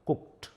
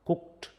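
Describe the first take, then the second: Both takes have the same delivery.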